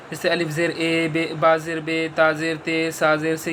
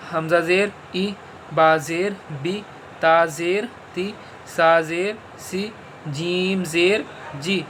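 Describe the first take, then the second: First: ज़ेर read as ए, बे, ते, से; majhool e sound. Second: ज़ेर read as ई, बी, ती, सी, slowly; maroof i sound. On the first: Teacher showing pupils the wrong majhool ज़ेर. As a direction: say बे with an open e vowel. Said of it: "ये मजहूल तरीका है". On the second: Teacher showing pupils the correct maroof ज़ेर. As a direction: say बी with a clear short ee. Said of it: "छोटी ई की आवाज़ आती है". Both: Shown as a demonstration.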